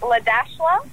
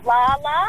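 First: The name is said with 'dash' in the middle. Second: The name is said with no middle 'dash' sound. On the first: The way the name is really meant to be said. The speaker calls it right. "but you actually pronounce it Ladashla" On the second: The teacher's reading of the written name. The speaker calls it wrong. "she pronounced her name Lala"

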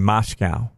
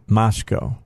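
First: The last syllable ends like 'cow'. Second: The last syllable ends like 'co'. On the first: The speaker calls it wrong. "I'm noticing more and more anchors saying Moscow" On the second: The speaker calls it right. "there is no cow in Moscow"

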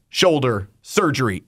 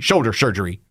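First: The words are said clearly and separately. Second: The words are slurred together into one blur. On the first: The speaker calls it right. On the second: The speaker calls it wrong.

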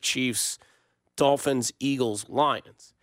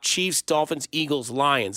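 First: The list is read at a slower pace. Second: The list is read at a normal, quicker pace.

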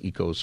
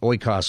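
First: The word begins with an 'e' sound. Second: The word begins with an 'oy' sound. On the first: This is how modern Greek speakers say it. "if you're speaking modern Greek, I think it's ecos" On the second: This is the academic way to say it. "is the official academic pronunciation"

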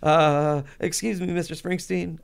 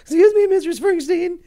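First: It is said in a normal voice. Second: It is said in a much higher voice.

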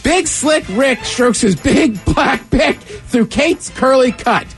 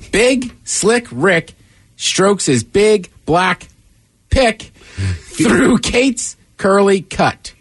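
First: It is read quickly. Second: It is read at a normal speed.

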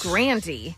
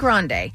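First: The name is said in an Americanized pronunciation. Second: The name is said in its original pronunciation. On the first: The name was changed to sound more American. "to Americanize it to yes" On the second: This is the family's original form of the name. "It was originally Grande"

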